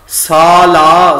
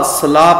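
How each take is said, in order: First: ਸਾਲਾ slow and loud, saa-laa; long first vowel. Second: ਸਲਾ with quick sa, sa-laa; short first vowel. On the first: Teacher models the right reading, ਸਾਲਾ with long aa. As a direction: hold both aa vowels in ਸਾਲਾ. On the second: Teacher warns against this reading, ਸਲਾ begun short. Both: Shown as a demonstration. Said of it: "ਸਲਾ ਪਾਠ ਨਹੀਂ ਕਰਨਾ".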